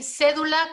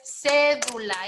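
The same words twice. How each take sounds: First: Said in the usual way. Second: "cédula" slowly, with a long CÉ; stressed first syllable. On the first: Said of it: "qué palabra es". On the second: Shown as a demonstration. Teacher prompting the class, "cédula" slow and stressed on CÉ. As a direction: stretch CÉ in "cédula", then let the rest fall. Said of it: "Esdrújula".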